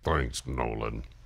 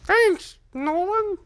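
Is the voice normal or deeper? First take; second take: deeper; normal. First: It is said in a deeper voice. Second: It is said in a normal voice.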